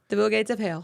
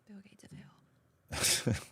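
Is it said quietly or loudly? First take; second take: loudly; quietly. First: It is said loudly. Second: It is said quietly.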